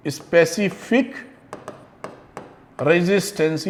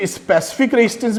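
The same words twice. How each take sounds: First: "specific resistance" measured and quiet, broken into separate pieces. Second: Said in the usual way. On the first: Shown as a demonstration. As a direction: dictate "specific resistance" word by word for note-takers. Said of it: "लिख विख लीजिएगा". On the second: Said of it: "कई लोग इसको specific resistance भी कहते हैं".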